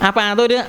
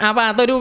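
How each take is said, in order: The two takes are said the same way.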